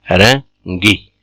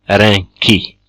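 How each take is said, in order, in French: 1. La consonne avant la voyelle finale est un g. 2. La consonne avant la voyelle finale est un k. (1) "mais rengi" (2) "on dit pas renki"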